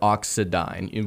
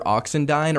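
First: The name has no n sound in the middle. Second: The name has an n sound in the middle.

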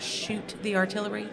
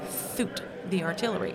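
First: The first word starts with a clear sh sound. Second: The first word starts with a lisped th sound. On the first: "when it talks about shoot the artillery" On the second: "he had a lisp"

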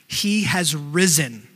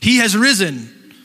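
First: It is said in a plain, flat reading. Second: It is said loudly, with exclamation.

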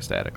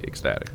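First: The middle k sound is dropped, words run together. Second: The middle k sound is clearly pronounced. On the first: "people kind of mumble and run words together ... I might say ecstatic like that" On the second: "if you're asking me to pronounce it, absolutely"

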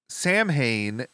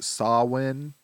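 First: It is said as 'Sam-hain', with m and h. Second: It is said as 'Sow-in', without m or h. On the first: The speaker calls it wrong. "Sam Hain is pronounced incorrectly" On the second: The speaker calls it right. "What is it? Sawin?"

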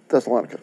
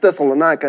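First: The name is said to rhyme with Hanukkah. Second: The name does not rhyme with Hanukkah. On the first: The speaker calls it wrong. "not Thessalonica" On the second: The speaker calls it right. "because it's Thessalonica"

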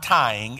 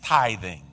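First: The middle th sound is dropped. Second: The middle th sound is pronounced. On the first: The speaker calls it wrong. "Some people mispronounce it and call it tying" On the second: The speaker calls it right. "but it's not tying, it's tithing"

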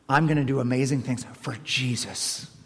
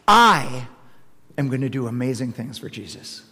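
First: The stress falls on the word Jesus. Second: The stress falls on the word I.

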